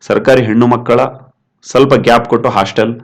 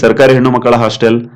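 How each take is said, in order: First: A short pause comes before the last word. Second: The phrase runs on without a pause.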